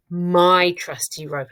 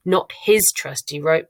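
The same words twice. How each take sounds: First: "my" drawn out slowly; stress on "my". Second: "his" marked as the wrong word; stress on "his". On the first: Teacher correcting to first person, slow stressed "my". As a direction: hold "my" long as the correction. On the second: Teacher rejecting third person, stress on "his". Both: Shown as a demonstration. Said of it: "got to keep it in first person".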